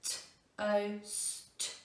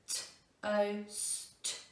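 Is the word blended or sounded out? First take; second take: sounded out; sounded out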